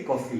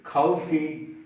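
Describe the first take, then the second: First: Coffee said quickly with a soft k; coffee with a plain kaw vowel; wrong way coffee. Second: Coffee with an aspirated k and a rounded vowel; coffee with a breathy k and an open o; right way coffee. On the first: Teacher showing the wrong coffee, fast and soft. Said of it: "You cannot say coffee". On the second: Teacher modelling the correct coffee, aspirated k. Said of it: "You have to say coffee". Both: Shown as a demonstration.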